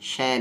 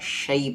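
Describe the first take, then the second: First: The syllable is pronounced the Urdu way. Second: The syllable is pronounced the Arabic way. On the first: The speaker calls it wrong. "शै नहीं। शैतान उर्दू में और हिंदी में होता है" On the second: The speaker calls it right. "यहाँ पर शै पढ़ना है"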